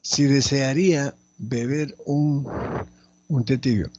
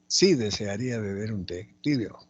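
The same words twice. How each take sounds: First: Slow, loud dictation with pauses; teacher reading out slowly and loudly. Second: Said in the usual way. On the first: Shown as a demonstration. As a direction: dictate it firmly, phrase by phrase. Dictating the exercise sentence.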